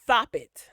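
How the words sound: The s is lisped, sounding like th.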